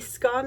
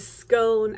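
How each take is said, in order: First: The vowel rhymes with gone. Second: The vowel rhymes with cone. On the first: "scone as in gone" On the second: "a scone as in cone"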